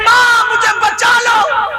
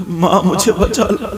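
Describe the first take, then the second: First: High, shouted cry for help, slowing; screaming for help. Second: Said in the usual way. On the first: Acted. Girl screaming to her mother to save her, high shouted cry. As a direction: scream to be saved. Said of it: "اب یہ چیخ رہی ہے".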